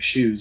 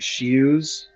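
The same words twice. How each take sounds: First: The name is said fast, sounds run together. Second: The name is enunciated carefully, each sound clear. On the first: "when you say it fast, it sounds like" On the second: "like properly, it would be like"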